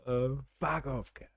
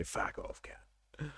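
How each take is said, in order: First: A lightly done Australian insult; a hint of an Aussie bloke; mock Aussie. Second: Whispered Aussie. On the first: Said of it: "how Australian someone is". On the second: Retold or imitated. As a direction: breathe the Australian insult as a whisper. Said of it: "how they say".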